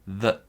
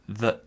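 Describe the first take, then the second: No difference in how they are said.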